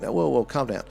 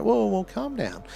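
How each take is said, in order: First: Said in the usual way. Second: Pitched high, soothing whoa; high mock soothing; calming down. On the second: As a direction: lift the whoa high and ease them down. Calming an overreacting person.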